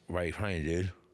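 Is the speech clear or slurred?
slurred. The words are spoken with slurred speech.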